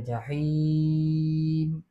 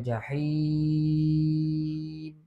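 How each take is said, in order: First: The vowel before the final m is held moderately. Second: The vowel before the final m is held longest. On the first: "empat boleh baca" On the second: "enam harakat pun boleh baca"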